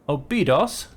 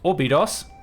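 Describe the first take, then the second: First: The name begins with a plain 'O' sound. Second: The name begins with an 'Or' sound. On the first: The speaker calls it wrong. "not O" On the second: The speaker calls it right. "Sorry, Orbidos, not O"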